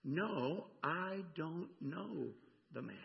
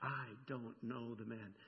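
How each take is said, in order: First: Slow denial, a weighted pause between "I don't know" and "the man"; emphatic denial. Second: Low, hushed, deliberate "I don't know the man"; understated emphatic denial. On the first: Preacher quoting Peter's second denial, slow and emphatic. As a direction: draw out "I don't know" word by word, firmly. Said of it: "He gets emphatic". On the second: Preacher quoting Peter's last denial, quietly emphatic. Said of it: "and says emphatically". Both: Retold or imitated.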